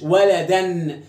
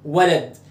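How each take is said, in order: First: "ولدًا" said "waladan", the final n sounded; with tanween. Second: "ولد" ending on the d, no -an; tanween removed. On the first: Teacher demonstrates a tanween word, final -an sounded. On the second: Teacher removes the tanween from the word, ending dropped. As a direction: say "ولد" bare, lower in pitch. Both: Shown as a demonstration. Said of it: "شيل التنوين".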